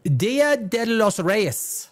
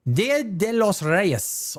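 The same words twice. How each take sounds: First: "Dia de los Reyes" said slowly in Spanish, each word drawn out; slow, careful Spanish "Dia de los Reyes"; Spanish name. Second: "Dia de los Reyes" repeated slowly in Spanish; again slow Spanish "Dia de los Reyes", a bit lighter; Spanish name. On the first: Naming the Mexican holiday for viewers, slow Spanish pronunciation. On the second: Repeating the holiday name to viewers, slow Spanish. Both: Shown as a demonstration. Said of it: "It's called".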